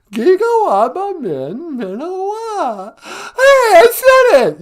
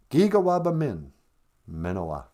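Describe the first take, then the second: First: Giga waba min, minowa squealed much higher and louder, minowa slow; mock Megan attempt. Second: Giga waba min, minowa said steadily, falling at the end; Ojibwe farewell. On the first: Megan repeats the goodbye for Nana, excited squeal. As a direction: ham up a learner's clumsy try. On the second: Shown as a demonstration. Nana teaches Megan the goodbye, clear and even. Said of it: "We like to say".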